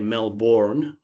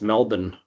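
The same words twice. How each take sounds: First: It is said with an American pronunciation. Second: It is said with an Australian pronunciation. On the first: The speaker calls it wrong. "Americans say Melbourne because that's how it's uh, spelt" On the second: The speaker calls it right. "but it's Melbourne"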